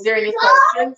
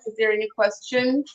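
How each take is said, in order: First: High, raised call to the audience. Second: Said in the usual way. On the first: Real, not acted. Host calls out to viewers in a high voice. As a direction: pitch the question up high.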